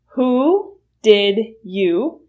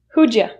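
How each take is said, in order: First: Did you is said as two full words. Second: Did you is reduced to a single ja sound.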